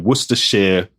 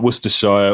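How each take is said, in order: First: It is said in a local rural accent. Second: It is said without the local rural accent. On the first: The speaker calls it right. "the local way to do it in my local Worcestershire rural accent" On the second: The speaker calls it wrong. "not Worcestershire"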